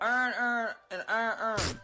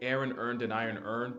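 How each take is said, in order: First: It is said in a Baltimore accent. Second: It is said in the speaker's general accent.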